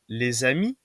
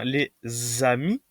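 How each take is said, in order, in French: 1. Le son de liaison z n'est pas accentué. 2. Le son de liaison z est fortement accentué.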